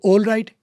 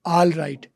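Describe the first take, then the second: First: All right with a rounded o, "ol right"; British "all" as "ol"; o vowel in all right; British o sound. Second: All right with an open aa, "al right"; American "all" as "aal"; American a sound. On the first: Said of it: "एक ओ का फ़र्क हो गया". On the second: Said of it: "American वाले उसको आ कर देगा". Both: Shown as a demonstration.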